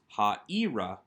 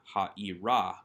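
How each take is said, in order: First: The stress is on the penultimate syllable. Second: The stress is on the final syllable. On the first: It means toward the city. The speaker calls it right. "the accent remains on the second to last syllable" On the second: It would be a feminine ending. The speaker calls it wrong.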